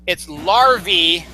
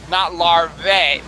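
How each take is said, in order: First: "larvae" as "lar-vee", drawn out; correct larvae. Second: "larvae" as "lar-vay", drawn out; wrong larvae. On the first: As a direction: end LARVAE in a slow EE. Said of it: "you have to pronounce it that way". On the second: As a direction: end LARVAE in a slow AY. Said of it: "not larvae". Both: Shown as a demonstration.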